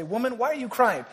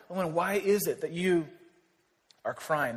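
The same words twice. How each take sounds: First: Higher-pitched mock questioning of her; mock blunt demand. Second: Earnest, softening toward the end; gentle calling out. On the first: Preacher imitates what guys shouldn't say to a crying woman, mock blunt. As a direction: imitate a tactless man asking. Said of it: "you don't just say". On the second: Retold or imitated. Angels asking Mary why she is crying, gentle and not derogatory. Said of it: "they're calling out to her".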